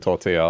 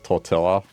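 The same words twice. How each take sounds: First: It is pronounced in the original way. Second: It is pronounced in the Australian way. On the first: The speaker calls it right. "it's actually tortilla" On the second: The speaker calls it wrong. "she would pronounce tortilla as tortilla"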